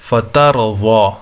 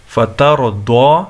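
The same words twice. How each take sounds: First: فتر و ضو ending in a heavy "zaw"; فتر و ضو drawn out as "fatar-zaw"; zwad reading. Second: فتر و دو ending in a heavy "daw"; فتر و دو drawn out as "fatar-daw"; dwad reading. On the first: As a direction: recite slowly with a thick z sound in ضو. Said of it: "بعض لوگ اس کو زوات پڑھتے ہیں". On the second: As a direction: recite slowly with a thick d sound in دو. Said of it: "بعض لوگ اس کو دوات پڑھتے ہیں". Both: Shown as a demonstration.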